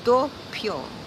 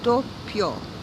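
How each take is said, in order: First: The word is said with two syllables. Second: The word is said with two syllables.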